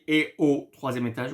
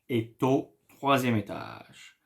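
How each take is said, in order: First: No T sound is heard between est and au. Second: A T sound links est to au. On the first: "I did not say" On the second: "we make the liaison"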